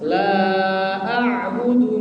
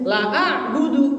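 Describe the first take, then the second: First: The vowel of 'la' is held long. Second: The vowel of 'la' is cut short. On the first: I do not worship what you worship. The speaker calls it right. "La-nya panjang" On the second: I truly worship what you worship. The speaker calls it wrong. "Tapi kalau Bapak Ibu membacanya pendek"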